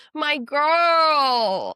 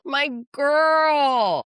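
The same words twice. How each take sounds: First: High, loud squeal of pride; loud, delighted shout; excited cheer. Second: High, loud delighted squeal; loud, proud shout; excited cheer again. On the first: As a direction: cheer her on like a best friend. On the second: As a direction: celebrate her at full volume. Repeated cheer. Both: Real, not acted.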